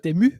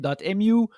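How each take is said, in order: First: The name is said with a French pronunciation. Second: The name is said with a non-French pronunciation. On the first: This is how French speakers say it. "for us it's" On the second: This is how many other people say it. "a lot of people say"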